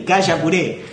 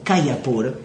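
First: The name ends with the syllable 'puré'. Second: The name ends with the syllable 'pur'. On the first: This is a Guaraní-style reading of the name. The speaker calls it wrong. "yo le doy la versión guaraní" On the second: This is the correct way to say the name. The speaker calls it right. "¿cómo se dice correctamente?"

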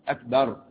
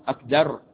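No difference in how they are said.

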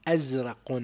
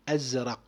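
Both takes have the same delivery.

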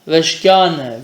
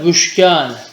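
First: The first syllable has the vowel a. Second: The first syllable has the vowel u. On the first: "bu da aynı şekilde" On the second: "bu da aynı şekilde"

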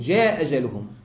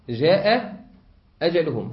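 First: One hamza is dropped. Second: Both hamzas are pronounced. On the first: "أجعله همزة واحدة وأسقط الأخرى" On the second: "كم همزة هذه؟"

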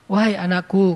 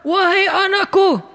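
First: It is said in a calm, gentle tone. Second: It is said in a harsh, angry tone. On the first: The speaker is being kind and affectionate. The speaker calls it right. "Nabi ngomongnya gitu" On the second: The speaker seems to be scolding. The speaker calls it wrong. "kesannya Nabi lagi marah-marah"

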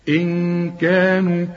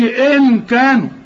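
First: The noon is hidden with a nasal hum. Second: The noon is pronounced clearly with the tongue. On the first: The speaker calls it right. "هنا في غنة برضو" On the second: The speaker calls it wrong. "ما تستعملش لسانك، ما تقولش إن كانوا"

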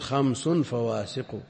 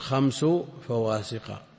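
First: The first word ends with an added n sound. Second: The first word ends without an added n sound. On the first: The second word describes the five. "على التنوين" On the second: It singles out these five specifically. "هو بإضافة خمس لا بتنوينه"

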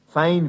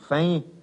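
First: The word ends with a clear n sound. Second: The word ends in a nasalized vowel, no n. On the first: "Als letzter Buchstabe in einem Wort geht das N, wie gesagt, zuweilen verloren" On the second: "nur durch eine Nasalierung wird noch ausgedrückt, dass es einmal da war"

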